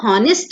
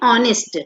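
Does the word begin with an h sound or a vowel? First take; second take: h sound; vowel. First: The word begins with an audible h sound. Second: The word begins directly with a vowel sound. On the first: The speaker calls it wrong. "हम इसको हॉनेस्ट नहीं पढ़ते" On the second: The speaker calls it right. "हम पढ़ते ऑनेस्ट, एच silent है"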